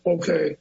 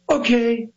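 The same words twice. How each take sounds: First: It is said plainly without extra energy. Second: It is said with theatrical pop and energy.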